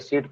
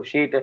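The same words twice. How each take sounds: First: Said in the usual way. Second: "sh" replacing the s in सीट; स की जगह श. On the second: Shown as a demonstration. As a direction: say सीट as "sheet", with "sh". (सीट का स 'श' जैसा) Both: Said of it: "स को श बोल देते हैं".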